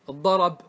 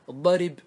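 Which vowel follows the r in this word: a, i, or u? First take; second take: a; i. First: The r is followed by an a vowel. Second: The r is followed by an i vowel. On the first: "نقلت الفتحة" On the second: "نقلت ايش؟ الكسرة"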